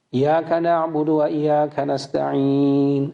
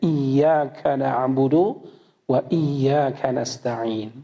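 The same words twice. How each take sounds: First: The y sound in iyyaka is short, not doubled. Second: The y sound in iyyaka is held long, doubled. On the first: We worship only the sunlight. The speaker calls it wrong. "kalau ada yang baca" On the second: We worship only you. The speaker calls it right.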